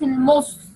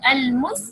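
First: The s sound is heavy and thick. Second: The s sound is light and thin. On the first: The speaker calls it wrong. "not المس" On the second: The speaker calls it right. "المس because sin is light, not heavy"

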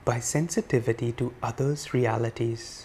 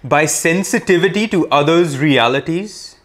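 First: The words are spoken softly. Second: The words are spoken loudly. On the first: "Softer still" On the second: "let us say it loudly first"

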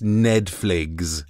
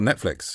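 First: The word is pronounced in a deliberately distorted way. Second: The word is pronounced in the normal way. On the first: This is an odd pronunciation that tests the voice recognizer. "how weird a way I can say Netflix" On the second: The voice recognizer still understands the word. "it still goes, oh, Netflix"

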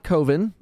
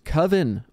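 First: The first syllable sounds like the word cove. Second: The first syllable has a short vowel, like cuv. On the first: The speaker calls it wrong. "Only a dum-dum would think it's pronounced like Cove with an N on the end" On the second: The speaker calls it right. "it's Coven"

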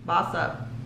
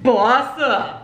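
First: The phrase is said flatly, without much conviction. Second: The phrase is said forcefully, with strong conviction. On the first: The speaker calls it wrong. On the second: The speaker calls it right.

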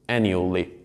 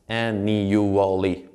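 First: The word is said with three syllables. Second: The word is said with four syllables. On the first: "In this case, it is like three syllables" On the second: "you may think it's like four syllables"

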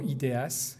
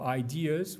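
First: The word is pronounced in French fashion. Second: The word is pronounced in Spanish or English fashion. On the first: "if you want to pronounce it in French" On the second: "whether you want to pronounce it in Spanish or in English"

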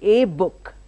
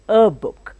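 First: The article is a full 'ay' sound. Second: The article is a reduced 'uh' sound. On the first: The speaker calls it wrong. "I don't say a book" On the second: The speaker calls it right. "I say a book"

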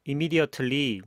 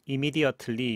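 No difference in how they are said.

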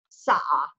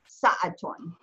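First: The word ends without any -tun sound. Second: The word ends with a full -tun sound. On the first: This is the everyday dialect form. "if you were just saying the word in dialect, you'd say sa'a" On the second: This is the formal standard form. "in proper Arabic, you pronounce it sa'atun"

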